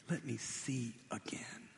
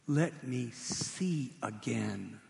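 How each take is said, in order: First: Breathless whisper, barely any voice; whispered plea. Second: Slow, drawn-out pleading; slow plea. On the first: Blind beggar repeating his plea to Jesus in a whisper. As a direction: whisper it like a prayer. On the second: Blind beggar asking Jesus for sight, slowly pleading. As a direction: let each word hang, begging. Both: Retold or imitated.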